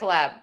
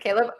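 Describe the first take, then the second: First: The name sounds like the word collab. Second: The name sounds like Caleb, rhyming with maybe. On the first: The speaker calls it wrong. "have I been saying your name wrong this entire time?" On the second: The speaker calls it right. "It's Caleb"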